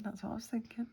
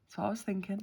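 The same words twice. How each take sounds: First: Soft whispered repeat; whispering. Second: Said in the usual way. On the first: Real, not acted. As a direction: breathe the words out.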